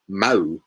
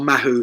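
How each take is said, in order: First: The H sound is left out entirely. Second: The H sound is pronounced in the middle.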